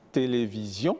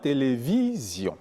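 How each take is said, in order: First: "télévision" landing on "sion"; accent sur la dernière syllabe. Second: "télévision" with a long "vi", falling after; accent sur l'avant-dernière syllabe. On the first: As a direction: stress the last syllable of "télévision". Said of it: "et non pas par exemple". (« télévision » accentué sur la finale) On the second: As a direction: stress "vi" in "télévision". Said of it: "c'est généralement l'avant-dernière syllabe". (« télévision » accentué sur « vi ») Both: Shown as a demonstration.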